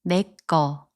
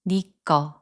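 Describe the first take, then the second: First: The first syllable is pronounced with an 'e' vowel. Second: The first syllable is pronounced with an 'i' vowel. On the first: "we use 내꺼" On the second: "or you can pronounce it as 니꺼"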